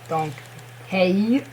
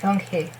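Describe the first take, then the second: First: The last syllable ends with a y-glide. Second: The last syllable ends in a pure vowel. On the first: The speaker calls it wrong. "but not dong hey" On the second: The speaker calls it right. "Dong he, but not dong hey"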